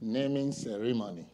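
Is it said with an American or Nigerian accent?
Nigerian. It is said in a Nigerian accent.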